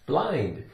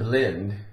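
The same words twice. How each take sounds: First: The vowel is a long I, like eye. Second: The vowel is a short I, like in. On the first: The speaker calls it right. "a long I sound" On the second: The speaker calls it wrong. "But it's not blind"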